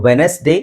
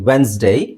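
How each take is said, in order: First: The word is said with three syllables. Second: The word is said with two syllables. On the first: The speaker calls it wrong. "ಎರಡೂ ತಪ್ಪು" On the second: The speaker calls it right. "D silent ಆಗಿರುತ್ತೆ, ಈ E silent ಆಗಿರುತ್ತೆ"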